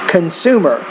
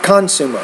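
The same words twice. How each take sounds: First: The stress is on the second syllable. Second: The stress is on the first syllable. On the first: The speaker calls it right. "But I would say consumer" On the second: The speaker calls it wrong. "not consumer"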